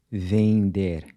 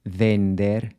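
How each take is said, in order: First: "vender" as "veing-der"; nasal EN in "vender", tongue off the roof; Portuguese nasal EN. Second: "vender" with a full N, tongue touching the roof; wrong "vender", as "ven-der" with clear N; English-style hard N. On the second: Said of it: "So it's not". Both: Shown as a demonstration.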